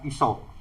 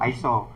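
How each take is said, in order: First: The name begins with an 'ee' sound. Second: The name begins with an 'eye' sound. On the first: The speaker calls it right. "pelafalan ini yang sebenarnya itu adalah Iso" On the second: The speaker calls it wrong. "Itu sih sebetulnya tidak salah, tapi kurang tepat"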